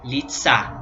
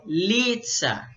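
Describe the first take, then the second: First: "litsa" with the stress on the last syllable; stress on final syllable. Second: "litsa" with a drawn-out, stressed first syllable. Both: Shown as a demonstration. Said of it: "pode variar essa questão da sílaba".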